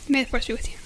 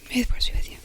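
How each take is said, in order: First: It is spoken aloud. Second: It is whispered.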